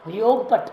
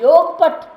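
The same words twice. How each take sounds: First: Said in the usual way. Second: योगपट called out louder and higher; stress on योगपट. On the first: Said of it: "ऐसा बोलते हैं". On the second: Shown as a demonstration. Sadhu tells how to name the guru, calling out योगपट loudly. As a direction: ring out the word योगपट proudly. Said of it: "नाम भी नहीं बोलेंगे".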